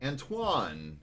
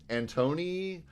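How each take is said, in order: First: The name ends with a 'wahn' sound. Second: The name ends with an 'ee' sound. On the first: The speaker calls it right. "So hopefully that's more correct" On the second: The speaker calls it wrong. "I don't know if I'm saying your name right"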